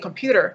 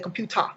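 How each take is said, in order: First: The final ER ends with a clear R sound. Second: The final ER is said without an R sound. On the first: This is how English speakers say it. "they don't say computer" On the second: This is how Japanese speakers say it. "they say computer"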